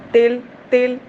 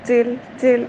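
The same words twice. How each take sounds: First: تل with a hard stop on ت and no breath. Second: تل with a soft ت and breath flowing out; soft breathy ta. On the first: Teacher showing the wrong hard ت of تل. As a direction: clip the ت of تل hard without breath. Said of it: "آواز سختی سے ٹھہراؤں". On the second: Teacher showing the correct breathy ت of تل. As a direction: let air escape on the ت of تل. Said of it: "آواز کمزوری سے ٹھہراؤں". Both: Shown as a demonstration.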